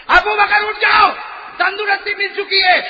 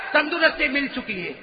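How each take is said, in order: First: Booming call. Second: Said in the usual way. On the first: Acted. Divine call repeated louder.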